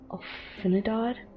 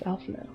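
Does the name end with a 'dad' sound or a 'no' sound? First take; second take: dad; no. First: The name ends with a 'dad' sound. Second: The name ends with a 'no' sound. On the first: The speaker calls it wrong. "I used to pronounce this guy's name as Alfinidad" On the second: The speaker calls it right. "his name's Alphino"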